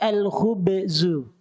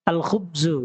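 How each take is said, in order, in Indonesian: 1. Konsonan itu diucapkan dengan gema pantul yang berlebihan. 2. Konsonan itu diucapkan biasa, tanpa gema sama sekali. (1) "gak usah dikol-kolahkan" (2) "gitu saja"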